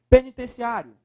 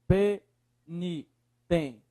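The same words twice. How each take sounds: First: Said in the usual way. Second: "penitenciário" in slow, separated syllables. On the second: Shown as a demonstration. Teacher separating the word for students, syllable by syllable. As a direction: split "penitenciário" with a pause after each syllable. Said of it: "separa a palavra".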